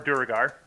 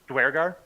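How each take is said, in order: First: The 'ue' is split into two separate syllables. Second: The 'ue' is said as one 'we' glide.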